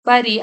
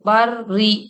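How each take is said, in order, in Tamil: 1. r குறுகியதாகவும் ஒற்றையாகவும் இருக்கிறது. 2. r இரட்டையாகவும் அழுத்தமாகவும் இருக்கிறது. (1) "பரி பரி அப்படின்னு சொல்லக்கூடாது" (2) "ராக்கு கொஞ்சம் அழுத்தம் கொடுக்கணும்"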